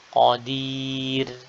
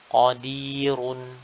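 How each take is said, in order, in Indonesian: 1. Bunyi r ringan dan tipis. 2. Bunyi r berat dan tebal. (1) "maka tipis seperti ini" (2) "ro-nya tebal karena dia berharokat dhammah"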